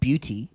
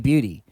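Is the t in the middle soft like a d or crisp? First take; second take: crisp; soft. First: The middle t is a crisp, clear t sound. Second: The middle t is softened, almost like a d. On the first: This is how the critic wanted it said. "not beauty" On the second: This is how Australians say it. "we say bu- beauty, bloody beauty"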